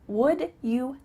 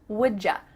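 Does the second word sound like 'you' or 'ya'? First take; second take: you; ya. First: The second word is a full 'you'. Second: The words blend with a 'j' sound into 'ya'. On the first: "Would you help me becomes would ya?" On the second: "we are going to say j"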